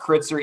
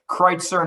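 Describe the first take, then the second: First: The first vowel sounds like 'it'. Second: The first vowel sounds like 'eye'. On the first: The speaker calls it wrong. "not Kritzer" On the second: The speaker calls it right. "So it is Kreitzer"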